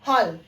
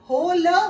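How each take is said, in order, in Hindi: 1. स्वर एक खुली 'aw' ध्वनि है। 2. स्वर एक बंद 'oh' ध्वनि है। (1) "ये है हॉल" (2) "गाइस ये बिल्कुल गलत है"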